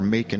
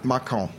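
First: The name is said with an American pronunciation. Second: The name is said with a French pronunciation. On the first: It names the town in Georgia. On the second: It names the French wine region.

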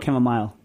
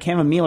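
First: The last syllable sounds like 'mile'. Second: The last syllable sounds like 'meal'. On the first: "Are you a meal or a mile?" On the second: "Are you a meal or a mile?"

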